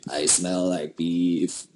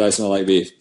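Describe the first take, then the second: First: Slow, low, put-on voice; lightly mimicked meme voice; vine quote impression. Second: Said in the usual way. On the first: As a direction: drag out beef like the vine. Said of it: "I love that vine". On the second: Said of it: "Jocelyn said".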